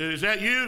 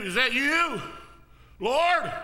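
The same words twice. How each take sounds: First: Said in the usual way. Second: Called out higher and louder, building; rising excited call. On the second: Retold or imitated. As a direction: cry out across the water, rising. Peter calls out to Jesus.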